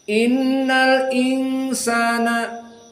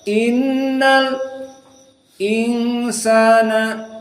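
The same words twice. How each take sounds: First: The words run on without a stop before 'insana'. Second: A brief silent stop comes before 'insana'.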